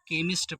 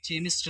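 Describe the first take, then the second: First: The word begins with a k sound. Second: The word begins with a ch sound. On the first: The speaker calls it right. "इसको हम केमिस्ट पढ़ेंगे" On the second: The speaker calls it wrong. "इसको हम चेमिस्ट नहीं पढ़ेंगे"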